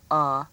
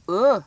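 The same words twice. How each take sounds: First: Uh said as in truck; good uh sound. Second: Uh said rounded, as in book; wrong uh sound. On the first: Teacher explains the smiling-face answer, uh as in "up". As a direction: give uh its correct open vowel, as in "up". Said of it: "with a good uh sound". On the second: Teacher shows the frowning-face mistake, uh as in book. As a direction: swap uh for the vowel of "put", drawn out. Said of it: "if I say the word wrong". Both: Shown as a demonstration.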